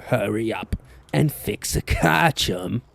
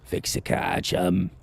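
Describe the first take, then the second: First: Put-on British accent. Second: Soft, unvoiced British whisper; whispered British accent. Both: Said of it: "Max was British like that".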